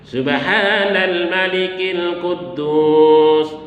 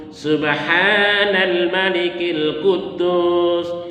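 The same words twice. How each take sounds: The two takes are said the same way.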